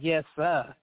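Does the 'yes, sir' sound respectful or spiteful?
spiteful. It is said spitefully and insincerely. The speaker does not mean the respect. The speaker calls it wrong. "We don't say it to be spiteful, because some people be"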